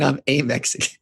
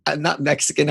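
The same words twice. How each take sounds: First: A hammed-up Mexican accent; bad Mexican accent. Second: Said in the usual way. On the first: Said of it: "the worst Mexican fucking accent".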